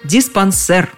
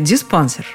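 First: The stress falls on the last syllable. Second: The stress falls on the second syllable. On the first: The speaker calls it right. "повторю-ка лучше так, как предлагают словари" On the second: The speaker calls it wrong. "Повторять неправильный вариант еще раз я не стану"

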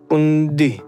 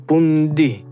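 Both takes have the same delivery.

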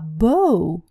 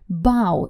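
First: The vowel sounds like 'oh' in 'go'. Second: The vowel sounds like 'ow' in 'cow'. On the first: It means a ribbon knot or bow tie. "но произносится по-другому" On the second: It means bending forward in greeting. "поклон в английском языке произносится как ау"

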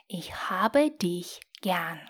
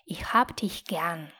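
First: It is said more slowly. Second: It is said at normal speed.

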